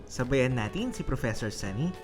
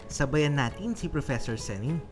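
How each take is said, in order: The two takes are said the same way.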